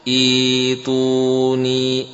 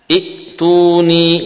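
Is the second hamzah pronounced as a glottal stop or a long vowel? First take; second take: long vowel; glottal stop. First: A long i vowel replaces the glottal stop. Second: A glottal stop follows the first vowel.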